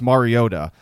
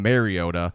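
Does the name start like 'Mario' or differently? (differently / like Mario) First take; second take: like Mario; differently. First: The first part sounds like the word Mario. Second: The first part does not sound like Mario. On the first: The speaker calls it right. "they used like the Mario, like the video game character" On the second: The speaker calls it wrong. "there's still people out there that call him Mariota, which annoys me"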